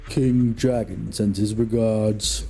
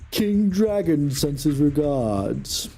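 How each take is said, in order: First: The voice is pitched deep and low. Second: The voice is pitched fairly high.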